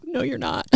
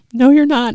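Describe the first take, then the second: First: Softer, higher, bitter mutter of "No, you're not."; muttered denial. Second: Louder, higher, bitter "No, you're not."; bitter retort. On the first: Grieving mother silently contradicts the church song, softly. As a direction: murmur "No, you're not." under your breath in church. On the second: Grieving mother answers the worship song aloud, bitter and loud. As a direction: fling "No, you're not." back as an accusation. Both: Retold or imitated. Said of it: "such an accusatory, bitter attitude".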